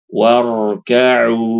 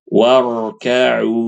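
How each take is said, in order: Both takes have the same delivery.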